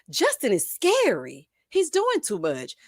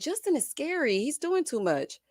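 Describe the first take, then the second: First: It is read in a loud, emphatic voice. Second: It is read in a calm, plain voice.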